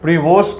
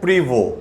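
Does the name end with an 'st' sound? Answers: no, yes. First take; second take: yes; no. First: The name ends with a pronounced 'st' sound. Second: The name ends on a vowel, without 'st'. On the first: The speaker calls it wrong. "प्रीवोस्ट भी कुछ लोग बोलते हैं" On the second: The speaker calls it right. "इसका actual pronunciation है प्रीवो"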